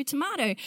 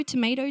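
First: "tomato" as tuh-MAH-toh; broad A. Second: "tomato" as tuh-MAY-toh; long A. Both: Shown as a demonstration. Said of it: "Whatever it is".

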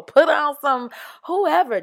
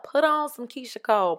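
First: "whoever" called out higher and louder; excited. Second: Said in the usual way. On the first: Real, not acted. Urging listeners to dance while cleaning, "whoever" loud and high. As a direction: hype it up like a party starter. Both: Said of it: "Get geeked up about cleaning up".

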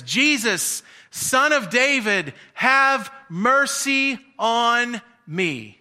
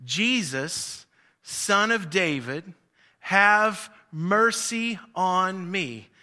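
First: Higher and louder, stretched-out cry; loud shout. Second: Slow stretched call at normal level; lighter holler. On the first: Blind man shouting louder to Jesus over the crowd, stretched cry. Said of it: "he shouts out even louder". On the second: Blind man first calling to Jesus, slow unforced cry. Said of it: "to holler out". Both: Retold or imitated.

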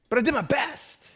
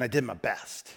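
First: High-pitched, whiny self-defence; wounded protest. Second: Said in the usual way. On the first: Acted. Preacher defending his botched blower repair, mock wounded. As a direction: squeak it out in mock indignation, rising.

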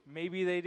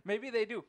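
First: Said in the usual way. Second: Laughing. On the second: Real, not acted.

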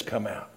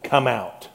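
First: "Come out." said much softer and falling, as a gentle call; soft call of Jesus. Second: Said in the usual way. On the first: Acted. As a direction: call him out gently, almost under the breath. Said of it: "when he says". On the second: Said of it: "when Jesus says".

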